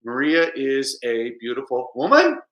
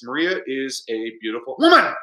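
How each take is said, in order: First: Slow statement tune until "woman" swings up; question only at end. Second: Level until a sudden burst on "woman"; "woman" punched as a late exclamation; exclamation only at end. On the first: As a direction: hold the question back until a sharp rise on "woman". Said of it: "if it's a question in English". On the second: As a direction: hold back, then exclaim "woman" with a fall. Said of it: "same thing with an exclamation". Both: Shown as a demonstration.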